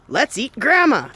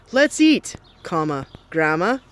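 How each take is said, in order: First: 'Let's eat grandma' run together with no pause; one unbroken phrase ending on grandma; without the comma. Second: Careful punctuated reading of 'Let's eat, comma, grandma'. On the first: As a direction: read it straight through, no break after eat. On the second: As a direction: pause after eat, comma spelled out. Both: Shown as a demonstration.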